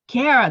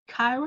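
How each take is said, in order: First: The first syllable sounds like 'care'. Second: The first syllable does not sound like 'care'. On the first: The speaker calls it right. "like a Care Bear" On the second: The speaker calls it wrong. "Did I say it right?"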